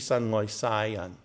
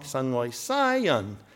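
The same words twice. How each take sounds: First: The key syllable is said in a middle tone. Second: The key syllable is said in another tone. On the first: God loves all the world's people. The speaker calls it right. "You say it here in the middle, and it's the right word" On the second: God loves Westerners. The speaker calls it wrong. "But if you say it wrong"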